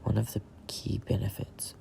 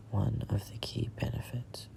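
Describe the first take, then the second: No difference in how they are said.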